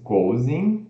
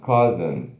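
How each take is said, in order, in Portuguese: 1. A primeira vogal é um som 'ou' pleno. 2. A primeira vogal é um som curto e relaxado. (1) "como se fosse cousin" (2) "se pronuncia, ó, ... K, O relaxado Z"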